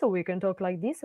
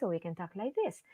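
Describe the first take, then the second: First: Said in the usual way. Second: Soft voice. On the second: Shown as a demonstration. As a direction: pull the volume right down to show.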